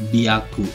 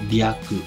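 No difference in how they are said.

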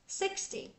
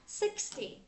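No difference in how they are said.

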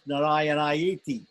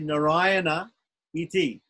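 First: The words merge into one, ending in -ayeti. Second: The two words are kept apart, ending in -a iti. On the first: "But it becomes Narayanayeti" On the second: "So it's actually Narayana Iti"

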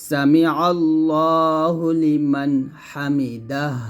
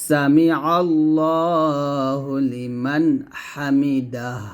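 No difference in how they are said.

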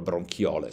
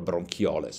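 First: It is said with a Latin-style pronunciation. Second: The same.

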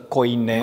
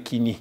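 First: The first syllable sounds like 'koy'. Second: The first syllable sounds like 'kee'. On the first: This is the traditional academic pronunciation. "Cea cunoscută ca fiind erasmică, ... acest cuvânt se pronunță coine" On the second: This matches the modern Greek pronunciation. "unde se pronunță ca neogreacă de astăzi, și anume chini"

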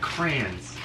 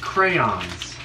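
First: The word has one syllable, with no y-sound. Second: The word has two syllables, with a y-sound. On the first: The speaker calls it wrong. "and I don't" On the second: The speaker calls it right. "He pronounces the Y"

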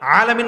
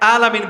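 First: The word begins with a throaty 'ayn sound. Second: The word begins with a plain glottal stop. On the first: The speaker calls it right. "আলামিন না পরে" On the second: The speaker calls it wrong. "হামজা দিয়ে পরে"

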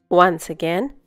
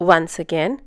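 The two takes are said the same way.

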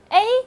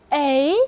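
First: The pitch stays high and level. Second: The pitch rises from mid to high. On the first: "一声A" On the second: "二声A"

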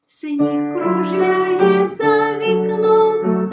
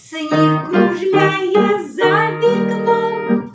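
First: It is said softly and quietly. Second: It is said in short, detached bursts. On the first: "А тепер тихенько" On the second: "А тепер уривчасто"

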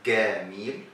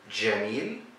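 First: It begins with a hard G, Egyptian style. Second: It begins with a J sound, as in Standard Arabic.

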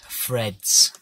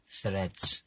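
First: The word begins with an F sound. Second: The word begins with a TH sound. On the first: The speaker calls it wrong. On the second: The speaker calls it right.

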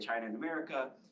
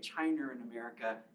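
First: It is said without an R after China. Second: It is said with an R after China.

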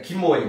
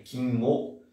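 First: The word ends in a full 'oi' sound. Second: The word ends in a nasal 'o' sound. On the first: "é kimoi" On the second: "como se tivesse um N aqui também"

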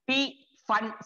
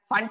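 First: The word begins with an audible P sound. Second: The word begins without any P sound.

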